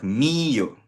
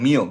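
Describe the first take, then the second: First: The stress falls clearly on the i. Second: The i is not given the stress. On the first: The speaker calls it right. "Notice may accent mark sa letter I" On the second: The speaker calls it wrong. "Hindi yan mio"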